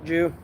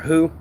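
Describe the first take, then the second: First: The name begins with a j sound. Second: The name begins with an h sound.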